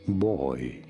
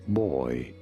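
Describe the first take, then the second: First: It is said as one syllable, like 'boy'. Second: It is said as one syllable, like 'boy'.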